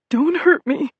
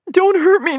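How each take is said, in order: First: High scared squeal; squealing fear. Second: Even higher, loud shrieking plea; terrified squeal. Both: Acted. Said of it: "he squealed".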